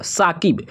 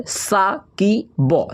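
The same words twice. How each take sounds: First: Said in the usual way. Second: Saqib stretched out slow for the class; slow dictation of Saqib; drawn out slowly. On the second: Shown as a demonstration. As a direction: draw out Saqib syllable by syllable. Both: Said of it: "क्या लिखा हुआ है?".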